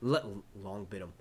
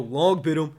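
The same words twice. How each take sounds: First: Said in the usual way. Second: Louder Longbottom in a mock New York accent, Lawngbottom. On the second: Streamer slips into New York accent calling Longbottom. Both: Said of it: "there goes that New York accent again".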